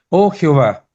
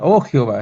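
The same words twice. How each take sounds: First: It is shouted with great force. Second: It is said quietly without force.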